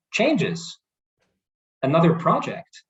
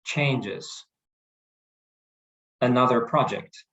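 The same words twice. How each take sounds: First: "Changes, another project" pitched higher, curious and open; raised intonation. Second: "Changes, another project" with a flat, falling end; flat falling mirror. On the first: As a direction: lift "Changes" up high, inviting more. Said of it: "We're raising our intonation". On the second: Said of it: "So we don't say". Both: Shown as a demonstration.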